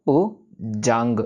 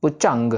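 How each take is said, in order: First: "पुजंग" drawn out slowly with a clear ज; slow correct j. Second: "पुचंग" with a च in place of ज; wrong ch sound. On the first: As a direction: stretch "पुजंग" and sound a clear ज. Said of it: "जज्जा है". ("पुजंग" धीरे, साफ़ ज के साथ) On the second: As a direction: say "पुचंग" with a च, not ज. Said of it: "ना ही". ("पुचंग" च की आवाज़ के साथ) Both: Shown as a demonstration.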